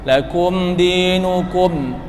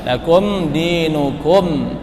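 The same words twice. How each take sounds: The two takes are said the same way.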